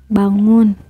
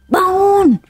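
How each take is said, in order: First: The word is said quietly and gently. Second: The word is said loudly and menacingly. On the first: A gentle first call to wake up. "pertama pelan" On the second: An angry, scolding call to wake up. "ketiga serem banget"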